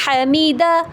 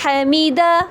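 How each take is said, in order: No difference in how they are said.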